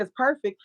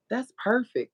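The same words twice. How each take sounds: First: PERFECT asked back, pitched higher; questioning echo. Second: Tag-pleased coworker. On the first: Puzzled friend checks coworker's reply, questioning PERFECT with raised pitch. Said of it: "I said". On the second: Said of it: "And she said, "Ah". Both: Retold or imitated.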